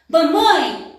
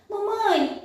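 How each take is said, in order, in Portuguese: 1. É dito com um tom bravo e irritado. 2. É dito com um tom doce e feliz. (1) "de uma forma mais brava, irritada" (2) "de uma forma mais doce, mais feliz"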